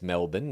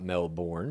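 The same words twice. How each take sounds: First: "Melbourne" said as MEL-bun; corrected pronunciation of Melbourne. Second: "Melbourne" said as MEL-born; rejected pronunciation of Melbourne. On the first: Host retelling Jen's correction, "Melbourne" as MEL-bun. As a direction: reduce the end of "Melbourne" to a short "bun". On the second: Host retelling the producer's mistake, "Melbourne" as MEL-born. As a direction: give "Melbourne" a full "born" ending. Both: Retold or imitated. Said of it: "corrects a producer on the pronunciation".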